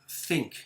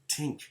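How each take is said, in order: First: The word begins with a soft th sound. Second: The word begins with a hard t sound. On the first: "like think" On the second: "they'll say tink"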